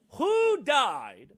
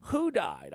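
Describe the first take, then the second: First: Loud, high yelled question; sudden outraged yell. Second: Said in the usual way. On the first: Real, not acted. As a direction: shout it like an angry radio host. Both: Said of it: "Sorry for yelling".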